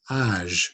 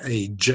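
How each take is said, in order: First: "âge" said the French way, ahzh. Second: "age" said the English way, ending in a hard j. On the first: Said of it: "in French it's a J". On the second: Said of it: "in English we'd say age". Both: Shown as a demonstration.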